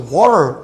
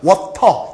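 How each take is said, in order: First: It is said with a native American accent. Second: It is said with a strong Korean accent. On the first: The speaker seems to be showing off. "친구들에게 따돌림 당하거나 ... 재수없다" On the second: The speaker fits in with peers. "이래야지만 이제 friend예요 ... 된장 발음"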